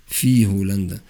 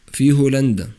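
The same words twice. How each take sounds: First: Said in the usual way. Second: في هولندا with في punched high and loud; في said louder and higher than هولندا; stress on في. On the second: Shown as a demonstration. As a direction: hit the word في hard, then هولندا. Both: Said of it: "فالمعنى هنا في".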